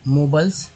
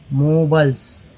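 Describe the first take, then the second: First: Said in the usual way. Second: The word मोबल्स said out clearly as a model; modelled reading. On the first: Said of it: "learners repeat the word". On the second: Shown as a demonstration. Teacher models मोबल्स for the class. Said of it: "teacher models the word".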